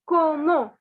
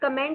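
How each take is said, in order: First: It is said the French way, ending in an o-sound. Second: It is said the English way, ending in -ent. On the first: The speaker calls it right. "the pronunciation is como" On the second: The speaker calls it wrong. "It is not comment"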